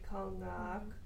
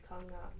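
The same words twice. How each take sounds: First: A sound in the word is drawn out long. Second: The sounds in the word are kept short. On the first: It refers to a smaller bird. "if it's a smaller one, you lengthen it" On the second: It refers to a bigger bird. "if it's a big one"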